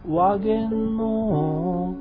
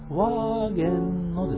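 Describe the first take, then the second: First: It follows an unusual, song-like pitch pattern. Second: It uses the word's normal spoken pitch pattern. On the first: The speaker calls it wrong. "それがなんで、ワーゲンのになるんですか" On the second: The speaker calls it right. "その言葉のイントネーションとしては、ワーゲンのですよ"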